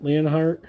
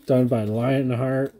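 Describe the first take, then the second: First: Leonheart with LEE-on instead of lion; 1 Leonheart said as leon heart. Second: Lionheart with LION as in the animal; 1 Lionheart said as lion heart. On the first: Dad fixing the name to Leonheart, LEE-on heart. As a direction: correct to Leonheart, starting LEE-on. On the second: Dad reading the card maker's name, Lionheart as lion heart. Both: Shown as a demonstration. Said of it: "or Leon-, yeah".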